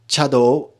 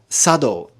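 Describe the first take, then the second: First: The word begins with a 'ch' sound. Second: The word begins with an 's' sound. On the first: This reading is used by the Kyoto Senke schools. "We can pronounce the T character cha and sa" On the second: This reading is used by warrior class schools. "the warrior class T schools will use sado as the preferred pronunciation"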